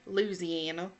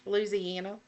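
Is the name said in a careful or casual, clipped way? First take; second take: casual; casual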